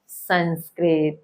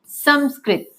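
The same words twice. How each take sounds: First: The first syllable ends with an n sound. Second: The first syllable ends with an m sound. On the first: The speaker calls it wrong. "ना कि" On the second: The speaker calls it right. "इसलिए इसका सही उच्चारण क्या है?"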